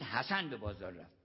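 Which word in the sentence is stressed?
حسن. The stress falls on حسن. Someone else did not go. "یعنی حسین نرفت"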